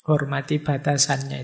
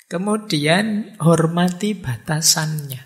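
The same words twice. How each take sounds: First: Said in the usual way. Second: Slow, with weight on "hormati"; slow emphatic stress. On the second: Shown as a demonstration. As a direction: lean hard on "hormati", drawn out. (tekankan kata "hormati" dengan pelan)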